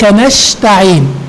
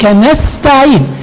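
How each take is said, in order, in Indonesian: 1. Konsonan setelah na- adalah bunyi sh. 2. Konsonan setelah na- adalah bunyi s. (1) "فلا تقل ... هذا خطأ" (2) "إنما"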